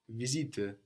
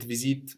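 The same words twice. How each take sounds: First: "Visite" with the final e voiced as a soft uh; dialect visite. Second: "visite" with a silent final e, ending on t; common visite. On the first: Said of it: "you will hear that E on the end in some dialects". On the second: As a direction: stop cleanly on the t of "visite". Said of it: "but visite much more common". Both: Shown as a demonstration.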